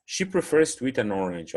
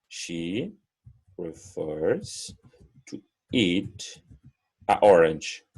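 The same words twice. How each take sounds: First: "an orange" linked as one; flowing correct version; smooth correct take. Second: Awkward stop between words; halting wrong take. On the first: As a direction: glide "an" into "orange". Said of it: "Olha como conecta". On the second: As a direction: pause before "orange" after "a". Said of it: "vou ter que dar uma paradinha". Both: Shown as a demonstration.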